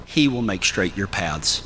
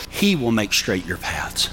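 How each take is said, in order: Both takes have the same delivery.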